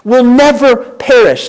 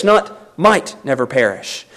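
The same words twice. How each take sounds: First: Never perish stressed with a falling tune; firm scripture emphasis on never. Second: Might picked out, the line much softer and lower; contrasting soft stress on might. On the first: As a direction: drive home never in Will never perish. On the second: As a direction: drop low and quiet, leaning on might. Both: Shown as a demonstration. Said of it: "Notice his wording".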